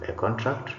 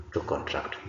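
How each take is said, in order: First: A CONtract, noun stress; stress on first syllable. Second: To conTRACT, verb stress; stress on second syllable. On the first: Teacher reads the bold noun, first-syllable stress on "contract". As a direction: hit "con" in "a contract". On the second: Teacher reads the bold verb, second-syllable stress on "contract". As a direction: hit "tract" in "to contract". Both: Shown as a demonstration. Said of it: "emphasis is going to be on the words".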